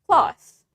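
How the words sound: An American accent with a short vowel. "in American accent, the A is shorter"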